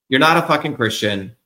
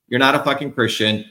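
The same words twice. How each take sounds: The two takes are said the same way.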